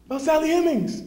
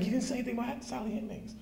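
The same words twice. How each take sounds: First: Much higher and louder, "Sally Hemings" called out; calling out. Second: Higher, softer and fast under the breath; muttering "Sally Hemings" to himself; muttered aside. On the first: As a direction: call it across the room to the guide. Calling out to the tour guide. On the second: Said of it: "So you know me". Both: Retold or imitated.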